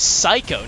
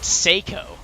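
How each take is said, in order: First: The first syllable sounds like 'sigh'. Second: The first syllable sounds like 'say'. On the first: The speaker calls it right. "It's Psycho, not Seiko" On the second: The speaker calls it wrong. "not Seiko"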